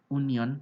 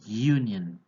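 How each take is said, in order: First: It begins with a plain vowel sound. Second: It begins with a 'y' consonant sound. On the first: The speaker calls it wrong. "bukan union" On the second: The speaker calls it right. "tapi union. Pas seperti memakai huruf konsonan Y"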